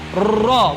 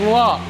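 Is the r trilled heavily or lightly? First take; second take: heavily; lightly. First: The r is trilled heavily with many vibrations. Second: The r is trilled lightly with few vibrations. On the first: The speaker calls it wrong. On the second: The speaker calls it right.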